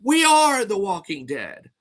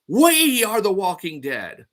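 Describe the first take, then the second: First: The stress is on "are". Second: The stress is on "we".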